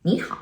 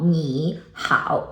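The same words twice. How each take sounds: First: 你好 with 你 rising as a second tone, then a dipping 好; 你好 said the right way, tone changed; correct tone sandhi. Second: 你好 with both syllables as full dipping third tones; 你好 read with no tone change; wrong third tones. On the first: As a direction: say 你好 as ní hǎo, first syllable rising. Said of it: "it's not 你好, it's". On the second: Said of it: "it's not 你好". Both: Shown as a demonstration.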